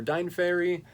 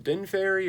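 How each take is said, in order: First: Dine Fairy with a long i, like "dine"; long-i pronunciation. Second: Din Fairy with a short i, like "din"; short-i pronunciation. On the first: Unsure reviewer trying a band name, Dine with long i. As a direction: say Dine to rhyme with fine in Dine Fairy. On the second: Unsure reviewer trying a band name, Din with short i. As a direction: say Din to rhyme with pin in Din Fairy. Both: Shown as a demonstration. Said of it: "if you're gonna pronounce it".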